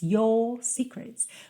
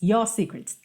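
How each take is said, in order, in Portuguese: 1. A vogal em 'your' é alongada. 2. A vogal em 'your' é encurtada. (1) "alongar um pouco a vogal anterior" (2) "Mas não pode ser"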